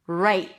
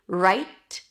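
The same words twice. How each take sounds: First: The final T is held with the breath stopped. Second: The final T is lightly released with air. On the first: "or hold it, right" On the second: "You can release the T, right, very lightly"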